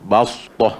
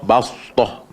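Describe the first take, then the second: The two takes are said the same way.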